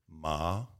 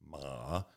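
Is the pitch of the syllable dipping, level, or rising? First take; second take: rising; dipping. First: The pitch rises like a question. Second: The pitch dips down and comes back up. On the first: "second tone. That's like you're asking a question" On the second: "Third tone, the dipping tone"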